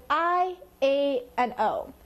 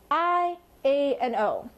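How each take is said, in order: Both takes have the same delivery.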